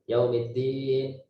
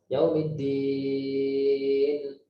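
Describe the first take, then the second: First: The vowel before the final n is medium. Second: The vowel before the final n is long. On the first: "boleh empat harokat" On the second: "dan panjang. Baca enam harokat"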